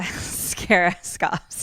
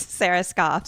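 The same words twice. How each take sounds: First: "Scara" with a stray k after the S; tongue-tied slip. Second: Said in the usual way. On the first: Real, not acted. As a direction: trip over the name as "Scara", amused. Stumbles on the name, then corrects it.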